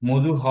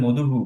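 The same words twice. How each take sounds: First: "মধু হ" with a bare ha ending; wrong visarga echo. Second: "মধু হু" with a hu ending; visarga echoing u. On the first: Teacher showing students what not to say, "মধু হ" ending in ha. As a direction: end "মধু হ" on h with inherent vowel, not u. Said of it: "মধু হ বলবো না". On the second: Teacher showing students the required form, "মধু হু" ending in hu. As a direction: repeat the u after h in "মধু হু". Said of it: "আমাদেরকে বলতে হবে মধু হু". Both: Shown as a demonstration.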